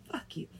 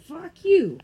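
First: Soft, muttered Fuck you. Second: Higher, louder Fuck you; mock shout. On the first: Pretend. Teasing a friend, muttered. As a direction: say Fuck you softly, under your breath. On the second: Teasing a friend, playful shout. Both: Said twice, quiet then loud.

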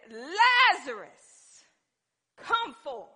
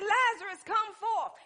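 First: Loud, long-drawn summons; commanding call. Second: High, loud, compact summons; urgent command. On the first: Preacher as Jesus calling the dead man out, drawn-out shout. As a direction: call out the name slowly and powerfully. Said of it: "Jesus began to speak to death". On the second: Preacher retelling the summons to Lazarus, high loud command. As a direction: fire the call out without stretching it. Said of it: "So he said". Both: Acted.

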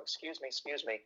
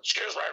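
First: Softly voiced woman squeezing past; imitated woman. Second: Smoker's voice. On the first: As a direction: murmur a polite, hushed apology as a woman. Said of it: "definitely a woman, going". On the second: Retold or imitated. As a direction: growl it out, trailing into wordless grumbling. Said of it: "definitely a smoker's voice going".

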